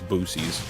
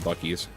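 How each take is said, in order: First: The name is said as boo-seas. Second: The name is said as bucky's. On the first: The speaker calls it wrong. "There's no way it's Boo Seas" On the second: The speaker calls it right. "It's definitely Bucky's"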